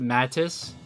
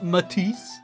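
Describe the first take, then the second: First: The stress is on the first syllable. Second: The stress is on the second syllable. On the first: The speaker calls it wrong. "I always pronounced it Mattis" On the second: The speaker calls it right. "Emphasis on the le the second syllable"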